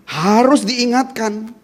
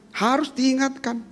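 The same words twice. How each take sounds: First: Harus diingatkan ditarik pelan, harus ditekan; slow emphasis. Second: Harus diingatkan diulang lebih lirih; soft echo. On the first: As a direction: ucapkan perlahan dan tegas. (penegasan lambat kepada jemaat) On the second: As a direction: ulangi dengan suara pelan. (gema lirih setelah penegasan) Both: Shown as a demonstration.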